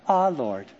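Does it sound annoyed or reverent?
reverent. It sounds reverent and devout.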